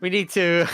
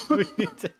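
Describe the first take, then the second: First: Said in the usual way. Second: Breaking into giggles; words squeezed through a laugh. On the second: Real, not acted. Laughs mid-sentence.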